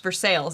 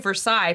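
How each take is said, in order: First: The name is said the local way. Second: The name is said the outsider way. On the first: The speaker is from the area. The speaker calls it right. "but here it's for sales" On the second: The speaker is not from the area. The speaker calls it wrong. "that's how you let everybody know that you're not from around here"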